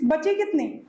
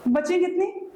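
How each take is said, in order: First: Said in the usual way. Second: बची कितनी? repeated with a high rising end; बची stressed, कितनी rising up at the end; rising repeated question. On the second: Shown as a demonstration. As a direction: push the class for the answer, tune rising.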